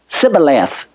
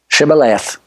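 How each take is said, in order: First: The word begins with a plain s sound. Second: The word begins with an sh sound. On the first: "they could not pronounce the H in Shibboleth. And so they'd say Sibboleth" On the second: "say the password, say Shibboleth"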